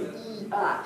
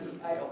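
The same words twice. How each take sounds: First: "E I" with wide, distinct vowels; over-articulated "E I"; full jaw articulation. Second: "E I O" quick and barely opened; lazy, small-mouthed "E I O"; under-articulated demo. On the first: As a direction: open the jaw fully on "E I". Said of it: "I wanna see the jaw working". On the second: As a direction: rush "E I O" with little jaw movement. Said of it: "some of you were kind of". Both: Shown as a demonstration.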